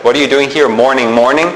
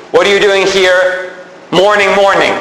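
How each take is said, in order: First: Quicker, lower echo ending on a questioning rise; mock puzzlement at the doubled "morning"; puzzled listener. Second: Said in the usual way. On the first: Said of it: "You're like".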